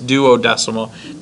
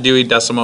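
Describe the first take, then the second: First: The word begins with the sound 'duo'. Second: The word begins with the sound 'Dewey'. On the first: The speaker calls it right. "it's duodecimal" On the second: The speaker calls it wrong. "It's not Dewey decimal"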